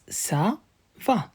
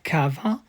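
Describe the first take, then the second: First: It begins with a soft S sound. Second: It begins with a hard K sound. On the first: The speaker calls it right. "it's ça va" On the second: The speaker calls it wrong. "It's not cava"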